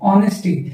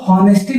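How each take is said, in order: First: The word begins with a vowel, no h. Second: The word begins with an audible h sound. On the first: The speaker calls it right. "यहाँ एच क्या होगा, silent होगा" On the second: The speaker calls it wrong. "इसको हॉनेस्टी नहीं पढ़ते"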